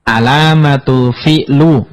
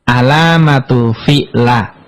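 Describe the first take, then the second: First: The last word ends with a u vowel. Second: The last word ends with an a vowel. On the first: "nggak boleh" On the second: "nggak boleh dibaca"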